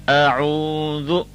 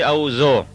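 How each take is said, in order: First: The middle consonant is a soft th sound. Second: The middle consonant is a hard z sound. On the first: The speaker calls it right. "Now if you listen carefully" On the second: The speaker calls it wrong. "we do not say a'u zo, zo with a z sound"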